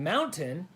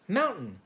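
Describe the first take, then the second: First: The middle T sound is clearly pronounced. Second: The middle T sound is dropped. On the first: This is how most people say it. "instead of saying mountain" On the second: This is how people from Utah say it. "people from Utah often remove the T from words"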